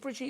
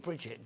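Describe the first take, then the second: First: The name is pronounced the French way. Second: The name is pronounced the English way. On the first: "making you all sound exotic and French" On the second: "when in fact it's Bridget"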